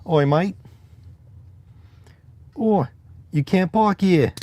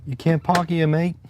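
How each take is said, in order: First: High, loud hammed-up Cockney; bad Cockney accent. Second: Bad Cockney accent. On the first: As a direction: bark it like a cartoon Cockney. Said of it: "take the funny ones that they know". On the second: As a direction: toss off a jokey Cockney. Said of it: "Like that". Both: Shown as a demonstration.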